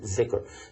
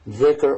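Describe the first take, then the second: First: The word begins with a z sound. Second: The word does not begin with a z sound.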